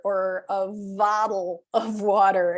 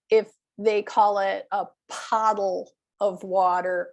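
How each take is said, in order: First: Said in the usual way. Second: Pottle with a hard P instead of the B in bottle; mispronounced pottle. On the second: Shown as a demonstration. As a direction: say pottle, a P for the B, as a learner would. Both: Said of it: "instead of a bottle".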